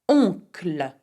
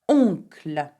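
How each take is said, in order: Both takes have the same delivery.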